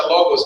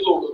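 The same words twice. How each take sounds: First: Logos with an open O, lóg-os; alternative pronunciation. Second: Logos with a closed O, lôg-os; her habitual pronunciation. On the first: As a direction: accept the open-vowel logos. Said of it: "eu aceito a pronúncia logos também". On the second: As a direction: say logos the way she learned it. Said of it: "eu falo até por costume logos". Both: Shown as a demonstration.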